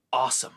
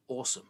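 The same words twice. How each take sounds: First: "awesome" imitated as the Americanised take, starting "ah"; American "awesome". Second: "Awesome" as the British correction, starting "aw", softer. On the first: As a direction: say "awesome" with an open American "ah" vowel. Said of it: "You become an American". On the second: Retold or imitated. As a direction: say "Awesome" with a rounded British "aw" vowel. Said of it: "how are you supposed to say it".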